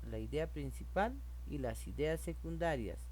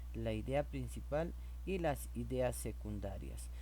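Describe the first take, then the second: No difference in how they are said.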